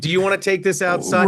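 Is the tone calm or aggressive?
calm. It is said calmly and evenly.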